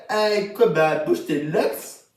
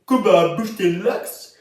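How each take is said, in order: First: Slow, drawn-out "bouge tes locks"; slow, lingering repeat of the hook. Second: Loud, higher hyped-up hook; hype ad-lib. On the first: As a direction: stretch the hook out lazily. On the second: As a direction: shout it like a hook. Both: Shown as a demonstration. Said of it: "c'est aussi le mec qui a fait".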